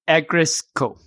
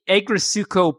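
First: The u vowel is dropped. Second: The u vowel is clearly pronounced. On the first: The speaker calls it right. "the U's not there, so it's really Agritsutko" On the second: The speaker calls it wrong. "English would be Agritsutko"

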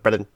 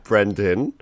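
First: The name is said quickly and run together. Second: The name is said slowly and carefully. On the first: "Instead of" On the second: "slow down my name every time I do the intro"

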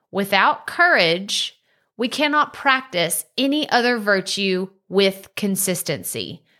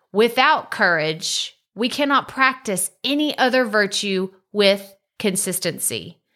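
Both takes have the same delivery.

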